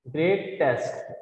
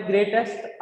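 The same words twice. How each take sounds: First: "greatest" in two parts, grey-test, falling; split word. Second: Said in the usual way. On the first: Shown as a demonstration. Teacher showing a suffix, "greatest" said in two parts. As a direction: set off the ending of "greatest", softer and lower.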